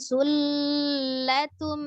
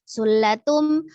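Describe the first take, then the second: First: The l sound is held for a long time. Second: The l sound is single, without doubling. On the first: "jangan juga ditahan sulatum ya, tidak juga" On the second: "jangan dilepas sulatum ya, jangan sulatum ketika itu tasdidnya berarti hilang"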